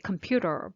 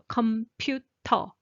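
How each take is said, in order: First: The t sound is soft and light. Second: The t sound is strong and forceful. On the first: "in English you say computer" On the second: "the T sound is much stronger"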